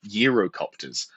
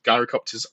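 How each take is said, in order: First: The first syllable sounds like 'yur'. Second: The first syllable sounds like 'jai'. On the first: The speaker calls it right. "that's how Euro is pronounced uh, for the, the, the Greek uh, takeaway food" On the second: The speaker calls it wrong. "I pronounced that wrong"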